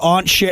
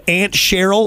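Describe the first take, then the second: First: "Aunt" with a broad, open ah vowel; "Aunt" as "awnt". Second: "Aunt" with the short a of "ant". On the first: Host echoing the guest's word, "Aunt" pronounced "awnt". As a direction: say "Aunt" to rhyme with "haunt". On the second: Host checking the guest's wording, "Aunt" pronounced "ant". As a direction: say "Aunt" just like the insect, "ant". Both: Shown as a demonstration. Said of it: "you said Aunt Cheryl or Aunt Cher".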